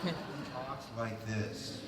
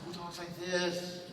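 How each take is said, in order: First: Slow, soft lightly voiced count; Lugosi voice. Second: Put-on slow, hinted Dracula accent; Lugosi voice. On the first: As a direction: carry the Dracula lilt. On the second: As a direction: end on a count's lilt.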